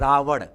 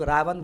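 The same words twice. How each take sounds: First: The final consonant is a flapped r sound. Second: The final consonant is a plain n sound. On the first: It reflects a regional habit from one area. "Uttar Pradesh के लोग क्या ड़ pronounce करते हैं" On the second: It reflects a regional habit from another area. "Bihar के लोग रावण बोल देता है, न ही प्रोनाउंस कर देता है"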